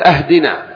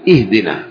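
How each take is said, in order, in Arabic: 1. تبدأ الكلمة بالصائت a. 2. تبدأ الكلمة بالصائت i. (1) "ولا تقل أهدنا" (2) "قل إهدنا"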